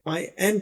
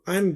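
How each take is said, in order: First: It is said as two full words. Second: It is contracted into one syllable. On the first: "आई एम की बजाय" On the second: "वो आई एम बोलते हैं"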